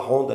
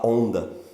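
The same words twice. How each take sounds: First: The initial H is pronounced as a breathy sound. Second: The initial H is silent; it starts with the vowel. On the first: This is the Brazilian way, not used here. "aqui não se fala Honda" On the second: This is the way it is said in Portugal. "aqui se fala Honda ... o H não aparece, não tem som de nada"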